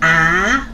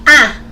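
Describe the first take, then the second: First: The pitch rises from middle to high. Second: The pitch falls sharply from high. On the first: "second tone goes up" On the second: "fourth tone"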